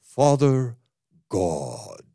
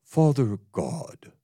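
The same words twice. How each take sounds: First: Father drawn out, God dropped low and deep; exaggerated holy-man voice; full venerable prayer voice. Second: Slow, lightly solemn Father God; an understated reverent opening; mild venerable intoning; toned-down prayer voice. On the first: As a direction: sink into a grave, pious intoning. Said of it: "The way he did it was more like this". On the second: Retold or imitated. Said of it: "I'm not doing it the way he did it".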